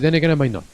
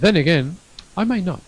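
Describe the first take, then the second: First: There is no pause after 'then again'. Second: There is a short pause after 'then again'. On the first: The speaker calls it wrong. "So don't say then again I might not" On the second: The speaker calls it right. "you need to stop like, I don't know, half a second approximately"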